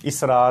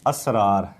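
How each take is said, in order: First: The first vowel is an 'i' sound. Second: The first vowel is an 'a' sound. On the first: The speaker calls it wrong. "इसरार नहीं है" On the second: The speaker calls it right. "ये ज़बर है अलिफ के ऊपर"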